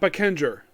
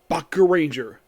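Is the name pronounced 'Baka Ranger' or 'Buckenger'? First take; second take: Buckenger; Baka Ranger. First: The name is said as 'Buckenger'. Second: The name is said as 'Baka Ranger'. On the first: This is what the show is actually called. The speaker calls it right. "apparently it's called Buckenger" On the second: This is how the title looks when read. The speaker calls it wrong. "I just have always pronounced it Baka Ranger"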